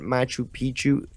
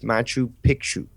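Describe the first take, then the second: First: The second word is said without a k sound. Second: The second word is said with a k sound. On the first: The speaker calls it wrong. "it's not Machu Picchu ... Pichu means uh, dick ... that's not the way you say it" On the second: The speaker calls it right. "it's Machu Picchu"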